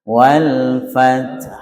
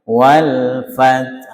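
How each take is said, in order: No difference in how they are said.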